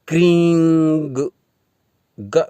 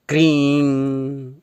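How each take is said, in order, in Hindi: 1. यह एक जुड़ी हुई ग ध्वनि से समाप्त होता है। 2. यह सादे अनुनासिक स्वर से समाप्त होता है। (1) "क्रीं ग न जोड़ें" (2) "केवल इस बिंदी का ही उच्चारण करें"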